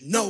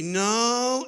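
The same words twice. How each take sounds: First: It is said forcefully and emphatically. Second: It is said in a doubtful, hesitant tone. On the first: A complete refusal. "absolutely not, which is no wah" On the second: Mild disagreement. "no as in, I don't think so"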